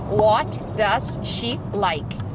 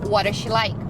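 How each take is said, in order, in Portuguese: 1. Cada palavra é dita separada e com clareza. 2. As palavras são ditas juntas, num fluxo só. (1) "a frase seria" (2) "A gente vai falar"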